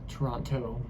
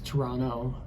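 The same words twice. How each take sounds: First: The T sound after the n is pronounced. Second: The T sound after the n is dropped. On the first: Locals would make fun of this. The speaker calls it wrong. "not Toronto" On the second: This is how locals say it. The speaker calls it right. "they don't pronounce the T in Toronto, so it's Toronto"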